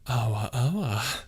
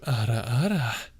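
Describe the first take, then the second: First: The middle consonant is a W sound. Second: The middle consonant is a rolled R. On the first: The speaker calls it wrong. "you want me to make it uwu" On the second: The speaker calls it right. "the normal thing is to go ara ara"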